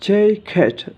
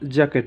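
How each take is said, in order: First: The first vowel is a gliding 'ei'. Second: The first vowel is a flat 'a' as in cat. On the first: The speaker calls it right. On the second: The speaker calls it wrong. "জ্যাকেট নয়"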